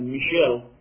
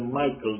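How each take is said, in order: First: The name is pronounced as Michel. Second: The name is pronounced as Michael. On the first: The speaker calls it right. "they say Michel" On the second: The speaker calls it wrong. "they don't say Michael"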